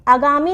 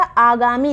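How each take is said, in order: First: आगामी with short first 'a'; wrong short vowel. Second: आगामी with long first 'aa'; correct long vowel. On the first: Teacher rejecting a mistake, short 'a' starting आगामी. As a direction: say आगामी as 'a-gaami'. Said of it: "आगामी नहीं लिखा जाता". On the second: Teacher giving correct form, long 'aa' starting आगामी. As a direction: stretch the opening of आगामी. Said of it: "बड़ा आ होता है". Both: Shown as a demonstration.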